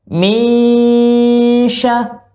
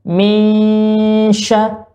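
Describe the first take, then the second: Both takes have the same delivery.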